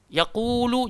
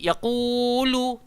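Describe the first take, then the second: First: The long vowel is held for two counts. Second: The long vowel is stretched beyond two counts. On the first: The speaker calls it right. "Mad asli mesti mau dua" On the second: The speaker calls it wrong. "jangan pergi yaqulu, tak sedap juga"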